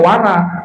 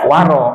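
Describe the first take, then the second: First: The vowel after the r sounds like a. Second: The vowel after the r sounds like o. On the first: The speaker calls it wrong. "jangan dibaca wara" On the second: The speaker calls it right. "dibacanya waro"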